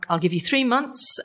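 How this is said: It is said in an Irish accent.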